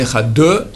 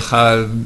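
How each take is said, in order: First: The final d is followed by an extra vowel. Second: The final consonant is not heard at all. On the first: "ni Ehad deux" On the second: "à la fin on n'entend rien"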